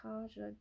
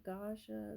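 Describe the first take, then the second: First: "Kaja" said with a hard K at the start, quiet; pronunciation try. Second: "Gaja" said with a hard G at the start, quiet; pronunciation try. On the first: Reader tests the K version of "Kaja" for viewers. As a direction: try "Kaja" with a K sound, softly. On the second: Reader tests the G version of "Gaja" for viewers. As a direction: try "Gaja" with a G sound, softly. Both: Shown as a demonstration. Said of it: "am I saying it right?".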